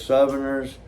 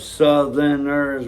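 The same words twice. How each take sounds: First: The middle sound is an f sound. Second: The middle sound is a th sound. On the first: This is how Southern speakers say it. "we say Southerners" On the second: This is the usual way to say it. "instead of saying Southerners"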